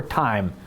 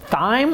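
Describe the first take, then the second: First: "thyme" opening on a hard t, the h dropped; thyme with silent H. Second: "thyme" said as spelled, opening on th; thyme with a TH sound. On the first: Host asks viewers how to say it, "thyme" said like time. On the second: Host asks viewers how to say it, "thyme" with th sound. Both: Shown as a demonstration. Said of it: "how you say that".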